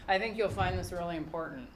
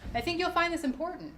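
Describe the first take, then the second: First: It is said in a flat, dull voice. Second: It is said in a lively, rising voice.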